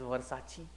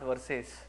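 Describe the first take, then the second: First: It is said as ver-sah-chee, ending in ee. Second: It is said like the English word verses. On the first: The speaker calls it right. "it is Versace" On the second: The speaker calls it wrong. "it is not verses"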